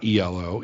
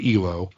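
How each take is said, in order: First: It is spelled out as three separate letters. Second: It is said as a single two-syllable word. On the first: The speaker calls it wrong. "It is not E L O. It's not an acronym" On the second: The speaker calls it right. "It's just the word E L O"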